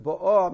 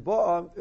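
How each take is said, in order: First: "bo'ah" stressed on "ah"; stress on last syllable. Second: "bo'ah" stressed on "bo"; stress on first syllable. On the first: Teacher showing present tense, "bo'ah" stressed at the end. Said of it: "means present". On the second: Teacher contrasting the tenses, "bo'ah" stressed up front. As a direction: hit the start of "bo'ah". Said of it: "So if it's pronounced". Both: Shown as a demonstration.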